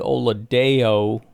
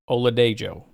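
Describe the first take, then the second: First: The name is said without a J sound. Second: The name is said with a J sound. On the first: The speaker calls it wrong. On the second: The speaker calls it right.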